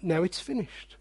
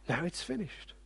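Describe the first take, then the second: First: Soft. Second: Much softer hushed repeat; a fading, whispered echo of finished; near whisper. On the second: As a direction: breathe it almost silent. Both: Shown as a demonstration.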